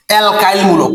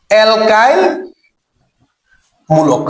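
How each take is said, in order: First: Said in the usual way. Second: Word-by-word repetition. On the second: Shown as a demonstration. Teacher drills the group's name, alkyl মূলক word by word. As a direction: split alkyl মূলক for repeating. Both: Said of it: "কি মূলক?".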